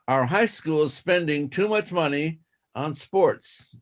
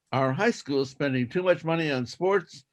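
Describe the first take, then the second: First: Slow careful reading. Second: Said in the usual way. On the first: Shown as a demonstration. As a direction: read it slowly, word by word. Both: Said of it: "do it twice".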